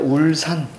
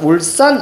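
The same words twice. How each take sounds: First: The middle s sound is plain and soft. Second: The middle s sound is tense and doubled. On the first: The speaker calls it right. "된소리 자 적어주지 않아요" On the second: The speaker calls it wrong. "울산 아니고요"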